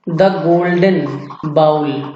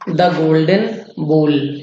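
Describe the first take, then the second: First: The last vowel sounds like 'ow' in cow. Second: The last vowel sounds like 'oh' in go. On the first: The speaker calls it wrong. "ये बाउल गलत है" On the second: The speaker calls it right. "यहां पर भी इसे बोल ही पढ़ेंगे"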